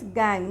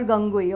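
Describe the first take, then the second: First: "gangue" as one syllable, like "gang"; correct pronunciation of gangue. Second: "gangui" in two syllables, ending "-gui"; mispronunciation of gangue. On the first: Teacher shows students how to pronounce the term, "gangue" as one syllable. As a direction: say "gangue" with a silent ending. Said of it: "pronounced as gangue". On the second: Teacher shows students the mistaken reading, "gangui" in two syllables. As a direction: say "gangui" with the final letters sounded out. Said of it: "not gangui". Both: Shown as a demonstration.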